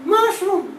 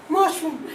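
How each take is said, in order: First: "Mushroom" as "mashum"; slurred word. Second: "mushroom" as "mashum", lower; slurred word. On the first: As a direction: drop the r in "Mushroom". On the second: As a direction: blur "mushroom" into "mashum", laughing. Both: Shown as a demonstration. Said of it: "I tend to slur words".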